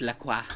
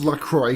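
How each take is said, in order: First: "La Croix" ending in a "kwah" sound; French pronunciation. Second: "La Croix" said as "la kroyks"; deliberately mangle "La Croix" to end in "kroyks"; mock-corrected pronunciation. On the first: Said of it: "the French pronunciation is". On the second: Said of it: "Actually, it's pronounced". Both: Shown as a demonstration.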